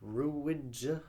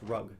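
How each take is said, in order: First: It is said like roo-widge, two syllables. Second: It is said like rug, one syllable. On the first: The speaker calls it wrong. "that was a joke. I'm being facetious. I know that that is not the correct pronunciation" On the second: The speaker calls it right. "It's pronounced rug"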